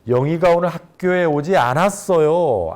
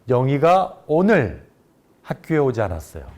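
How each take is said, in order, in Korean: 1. 강세는 '않았어요'에 있어요. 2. 강세는 '오늘'에 있어요. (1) "않았어요를 강조하게 되면" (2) "오늘을 강조해서 말한"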